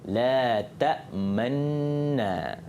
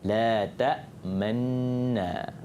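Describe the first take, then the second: Both takes have the same delivery.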